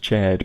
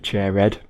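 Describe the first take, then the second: First: The name is said with one syllable. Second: The name is said with two syllables. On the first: The speaker calls it wrong. "I read his name as Chaired" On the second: The speaker calls it right. "slightly better when it's turned into two syllables"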